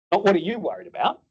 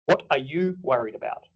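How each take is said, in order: First: "what are you worried about?" pitched up, rising at the end like a quick check; the wrong way to ask. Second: "What are you worried about?" asked gently, falling at the end, "What" leading; open caring question. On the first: Doctor rattling off "what are you worried about?" with a rising tune. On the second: Doctor asking a patient gently, "What are you worried about?" with a falling tune. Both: Shown as a demonstration.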